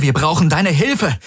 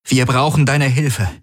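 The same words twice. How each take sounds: First: Wir brauchen deine HILFE, Hilfe hit high and falling; stress on Hilfe. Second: Wir BRAUCHEN deine Hilfe, brauchen stressed, falling. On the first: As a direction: punch Hilfe, higher than the first time. Repeats the demand impatiently. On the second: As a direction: lean on brauchen, fall at the end. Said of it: "mit aller Härte". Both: Acted.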